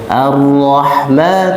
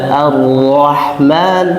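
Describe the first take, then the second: The two takes are said the same way.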